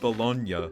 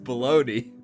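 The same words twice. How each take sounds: First: The word is said with an Italian pronunciation. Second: The word is said with an English pronunciation. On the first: The speaker calls it right. "It's pronounced bologna in Italian" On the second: The speaker calls it wrong. "in Italian it's not pronounced bologna"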